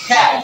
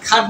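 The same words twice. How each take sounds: First: "খ্যাট" with a front ae vowel; correct "cat" vowel. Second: "খাট" with an open aa vowel; wrong "cat" vowel. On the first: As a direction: say "খ্যাট" with ae, not aa. ("খ্যাট" অ্যা দিয়ে উচ্চারণ) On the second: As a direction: say "খাট" with aa as in father. ("খাট" আ দিয়ে উচ্চারণ) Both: Shown as a demonstration. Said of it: "আমরা কি খাট বলি".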